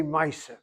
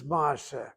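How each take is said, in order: First: Two syllables with an "eye" vowel in ma'aseh; Yiddish pronunciation. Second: Ma'aseh with a long open "ah", MAA-seh; no "eye" sound in ma'aseh, just "ah"; Hebrew pronunciation. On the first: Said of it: "They say". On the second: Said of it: "The word is". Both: Shown as a demonstration.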